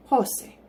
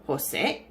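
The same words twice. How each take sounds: First: Jose with a high, stressed first syllable, falling away. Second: Jose starting low and rising onto a stressed last syllable; stress on second syllable. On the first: Teacher showing how it differs without the accent, stress on the first syllable of Jose. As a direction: punch the start of Jose, HO-say. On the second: Teacher repeating the correct name for learners, stress on the end of Jose. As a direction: lean on the end of Jose, hoh-SAY. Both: Shown as a demonstration. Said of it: "listen to the difference".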